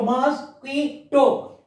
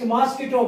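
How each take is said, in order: First: MOSQUITO slowly as "mos, qui, to"; three separate parts. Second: Said in the usual way. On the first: Shown as a demonstration. Teacher dividing trisyllable words for pupils, slow and separated. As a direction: pause after each syllable of MOSQUITO. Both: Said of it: "Three parts".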